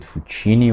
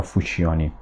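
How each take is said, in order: First: Fuccini said foo-CHEE-nee; alternative name pronunciation. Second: Fuccioni said foo-CHOH-nee; alternative name pronunciation. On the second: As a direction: say Fuccioni with a stressed "cho" before "nee". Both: Shown as a demonstration. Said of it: "don't know how to pronounce".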